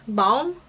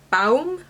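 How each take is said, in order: First: Baum tried with a broader, more open vowel; alternative pronunciation. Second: Baum tried with an "ow" vowel, rising; unsure pronunciation. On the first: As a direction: offer "Baum" as a second guess, closer to "bahm". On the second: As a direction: try out "Baum" to rhyme with "town", questioningly. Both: Real, not acted. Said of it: "not sure how to pronounce".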